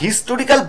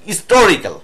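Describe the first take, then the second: First: The initial h sound is clearly pronounced. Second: The initial h sound is barely pronounced. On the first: The speaker calls it wrong. "আমরা হিস্টোরিক্যাল বলি, আমরা বাঙালিরা বলি" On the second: The speaker calls it right. "হয়ের উচ্চারণটা প্রায় হয়ই না"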